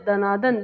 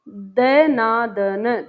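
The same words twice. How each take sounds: First: Said in the usual way. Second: दनादन stretched very slowly, syllable by syllable; syllables drawn out. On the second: Shown as a demonstration. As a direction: spell out दनादन in slow beats for the class. (धीरे-धीरे एक-एक ध्वनि अलग करके) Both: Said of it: "दनादन में कितनी ध्वनियाँ".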